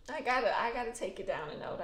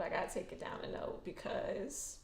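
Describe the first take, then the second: First: Said in the usual way. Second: Whispered, toned right down; dropped to a whisper. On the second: Real, not acted. Vlogger calming herself down for viewers, whispered. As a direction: bring it down to a hush.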